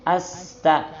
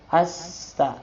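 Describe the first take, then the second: Both takes have the same delivery.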